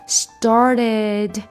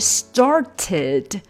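First: The middle t is a quick, smooth flap. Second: The middle t is a clean, crisp stop. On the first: "非常圆滑的一个音started" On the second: "本来应该是started"

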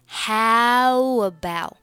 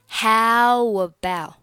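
Both takes have the same delivery.

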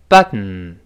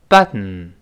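The two takes are said the same way.

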